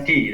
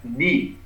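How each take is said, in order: First: "di" with the everyday Indonesian D; wrong di. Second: "di" drawn out with the Arabic dal sound; correct Arabic di. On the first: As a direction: give "di" as the incorrect example, plain D. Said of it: "Bukan di". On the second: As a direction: model a slow "di" as an Arabic letter. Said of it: "tapi di". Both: Shown as a demonstration.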